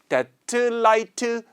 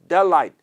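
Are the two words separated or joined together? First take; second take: separated; joined. First: The two words are separated by a break. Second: The two words run together without a break. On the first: "이렇게 끊지 않고" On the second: "이렇게 붙게 되는데"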